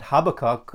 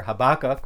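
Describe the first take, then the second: First: Habakkuk stressed on the first syllable, HAB-akkuk. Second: Habakkuk stressed on the middle syllable, ha-BAK-kuk; stress on second syllable. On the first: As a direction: say Habakkuk with the weight up front on HAB. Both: Shown as a demonstration. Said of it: "whatever way you want to say his name".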